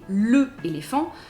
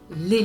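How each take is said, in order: First: The vowel of le is kept separately. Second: The vowel of le is dropped and joined. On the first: The speaker calls it wrong. "we don't say le éléphant" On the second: The speaker calls it right. "we say l'éléphant"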